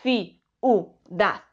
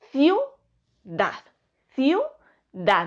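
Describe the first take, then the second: First: Ciudad slowly split ci-u-dad; slow three-syllable ciudad; wrong split. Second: Ciudad with iu in one beat; smooth two-syllable ciudad; correct. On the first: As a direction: draw out ci, u, dad apart. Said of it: "no decimos". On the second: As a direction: glide iu together in ciudad. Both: Shown as a demonstration.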